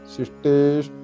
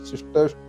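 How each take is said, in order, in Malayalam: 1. നടുവിലെ സ്വരം നീണ്ടതാണ്. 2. നടുവിലെ സ്വരം ഹ്രസ്വമാണ്, നീട്ടിയതല്ല. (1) "ശിഷ്ടേ എന്ന് നീട്ടിക്കഴിഞ്ഞാൽ ഈ എന്നുള്ളത് ചെറുതായിട്ട് വരും" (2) "ശിഷ്ടേഷ്ട എന്നൊക്കെ നമ്മൾ ചൊല്ലാറുണ്ട്. ഇതവിടെ അങ്ങനെയല്ല"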